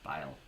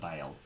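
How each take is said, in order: The two takes are said the same way.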